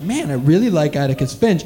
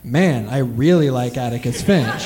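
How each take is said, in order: First: It is said in a casual, matter-of-fact tone. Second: It is said in a dreamy, longing tone. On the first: The character is simply admired. "I'm just kind of thinking like" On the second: The character is romantically desired. "the phrasing of that same sentence became like"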